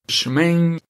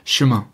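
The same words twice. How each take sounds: First: It is said in a strong regional French accent. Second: It is said in a standard French accent. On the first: This is how a local person says it. "She literally said it like that" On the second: This is the form learned in class. "The sh should be short and the m should be long and gentle"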